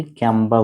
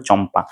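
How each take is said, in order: First: ক্যাম্পা said with a hard k and an "a" as in cat, kyampa; the mistaken kyampa, like the cola brand; wrong pronunciation. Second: Teacher giving the right form, চম্পা with ch not k; correct pronunciation. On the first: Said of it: "ক্যাম্পা হচ্ছে একটা ক্যাম্পা না". (ভুল উচ্চারণ: ক্যাম্পা, ক দিয়ে) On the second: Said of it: "উচ্চারণটা হবে চম্পা". (সঠিক উচ্চারণ: চম্পা, চ দিয়ে) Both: Shown as a demonstration.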